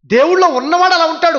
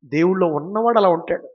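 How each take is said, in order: First: High, loud restatement; louder repeat. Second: Said in the usual way. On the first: Shown as a demonstration. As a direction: repeat it as a proclamation. (దేవుళ్ళో గట్టిగా, ఎత్తైన స్వరంతో) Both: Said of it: "అవునండి".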